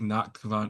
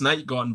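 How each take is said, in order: First: The name is said in full, ending 'gewand'. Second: The name is said as two syllables, ending 'gone'. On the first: The speaker calls it wrong. "I'm just gonna keep saying Nachtgewand because it's funny" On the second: The speaker calls it right. "I know it's Night Gone"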